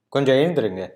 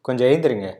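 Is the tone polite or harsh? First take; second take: harsh; harsh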